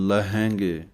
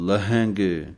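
No difference in how they are said.

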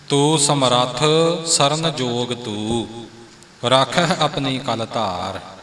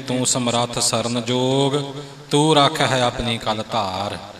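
First: The pause comes after the second 'ਤੂੰ'. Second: The pause comes before the second 'ਤੂੰ'.

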